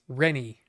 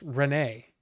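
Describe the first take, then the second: First: The name ends with an 'ee' sound. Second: The name ends with an 'ay' sound. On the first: This is how the computer voice says it. The speaker calls it wrong. "But no, it's Rennie. That's how it pronounces it" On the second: This is how a regular person says it. The speaker calls it right. "a regular person would know that Renee, R E N E or R E N E E, is pronounced Renee"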